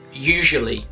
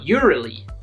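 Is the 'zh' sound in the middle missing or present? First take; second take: present; missing. First: The middle 'zh' sound is clearly pronounced. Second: The middle 'zh' sound is left out. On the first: The speaker calls it right. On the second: The speaker calls it wrong.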